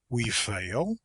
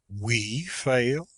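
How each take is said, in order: First: It is a quick, contemptuous question. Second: It sounds indignant and astonished, stressing "we".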